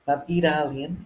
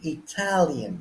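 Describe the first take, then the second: First: The stress is on the first syllable. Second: The stress is on the second syllable. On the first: The speaker calls it wrong. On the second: The speaker calls it right. "Check how the stress changes"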